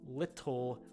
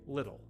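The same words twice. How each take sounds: First: The middle consonant is a clear T sound. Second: The middle consonant is a soft D sound. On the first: "so that you can hear, you can hear the T sounds in the middle of them" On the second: "if I'm talking to someone casually in natural English, I would say"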